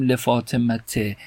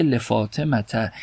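First: لفاطمته ending in -te, an e vowel; kasra ending. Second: لفاطمته ending in -ta, an open a vowel; fatha ending. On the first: Teacher gives the form not said, لفاطمته ending in -te. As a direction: end لفاطمته on short e, le-fatema-te. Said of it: "اما در این مثال نگفتیم". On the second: Teacher gives the form actually said, لفاطمته ending in -ta. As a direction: end لفاطمته on short a, le-fatema-ta. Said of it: "گفته". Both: Shown as a demonstration.

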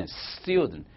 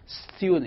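First: استودنت with an added e before the s, estudent; wrong vowel-initial take. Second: استودنت starting straight on st, no vowel before; correct consonant-cluster take. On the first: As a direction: say استودنت as e-studnet, adding a vowel first. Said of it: "ولی تلفظ صحیحش ساکنه". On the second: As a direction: say استودنت as stu-dent with a bare s. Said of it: "یعنی س". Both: Shown as a demonstration.

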